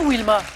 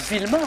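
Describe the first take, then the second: First: The name begins with a W sound. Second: The name begins with a V sound. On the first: "Je prononce bien Wilma" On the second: "C'est pas Vilma"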